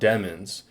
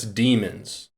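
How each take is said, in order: First: The first vowel is a short 'eh' sound. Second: The first vowel is a long 'ee' sound. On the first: The speaker calls it wrong. "not demons. Demons would have two M's" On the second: The speaker calls it right. "That's demons, E M is an E so- sound"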